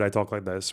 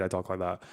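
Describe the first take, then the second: First: Demonstrating a bored, lower, softer "I talk like this". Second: Lower, softer, absent-minded "I talk like that"; distracted voice. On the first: Showing friends how he sounds when bored, low and listless. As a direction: say "I talk like this" like you couldn't care less. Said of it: "When I'm bored, I talk like this". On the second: Showing friends how he sounds when distracted, soft and far away. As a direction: say "I talk like that" as if your mind is elsewhere. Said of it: "When I've got something else in my mind, I talk like that". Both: Shown as a demonstration.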